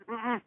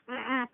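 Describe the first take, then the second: No difference in how they are said.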